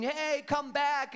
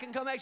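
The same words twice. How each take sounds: First: Drawn-out call, raised high; mild mock call after a dog. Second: Said in the usual way. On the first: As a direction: call the runaway dog back, slow. Boys chasing the dog.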